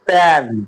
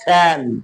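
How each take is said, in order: First: The p has no puff of air. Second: The p has a strong puff of air. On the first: "আগে আমরা উচ্চারণ করেছি" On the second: "এখন করব"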